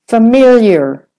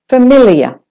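First: An American accent, the I as Y, final R. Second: A British accent, the I sounded, no final R. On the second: "For the British, familiar. The I is said"

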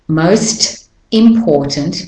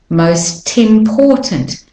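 First: The two words are said separately. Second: The T links onto the next word.

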